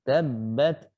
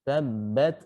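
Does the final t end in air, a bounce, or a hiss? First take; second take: air; air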